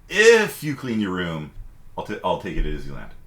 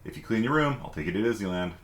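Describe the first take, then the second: First: The word 'if' is strongly stressed. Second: The word 'if' is said plainly, unstressed.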